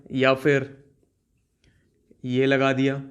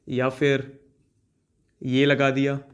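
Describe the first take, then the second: No difference in how they are said.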